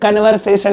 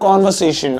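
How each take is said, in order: First: The first vowel is a short 'uh' sound. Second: The first vowel is an open 'aw' sound. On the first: The speaker calls it wrong. "कन्वर्सेशन नहीं होता" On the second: The speaker calls it right. "कॉन्वर्सेशन ही बोलते"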